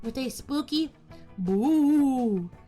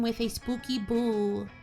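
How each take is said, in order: First: It is said in a put-on spooky voice. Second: It is said in a plain, normal voice.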